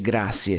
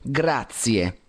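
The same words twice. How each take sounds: First: The middle consonant is an s sound. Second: The middle consonant is a z sound. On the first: The speaker calls it wrong. "non si dice grazie" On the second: The speaker calls it right. "si dice grazie, con Z"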